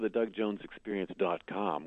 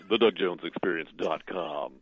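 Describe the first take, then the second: First: It is said in his normal voice. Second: It is said in a low announcer voice.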